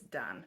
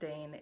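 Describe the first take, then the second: First: The name rhymes with 'man'. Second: The name rhymes with 'rain'. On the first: The speaker calls it right. "it's Dan" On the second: The speaker calls it wrong. "not pronounced Dane"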